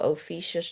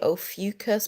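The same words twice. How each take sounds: First: Ophiuchus said "oh-FEE-shus"; preferred pronunciation. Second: Ophiuchus said "oh-FEW-kus"; common pronunciation. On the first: Telling viewers what sounds better to her, Ophiuchus as "oh-FEE-shus". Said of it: "so I say Ophiuchus". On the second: Telling viewers how many people say it, Ophiuchus as "oh-FEW-kus". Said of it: "a lot of people pronounce it". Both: Shown as a demonstration.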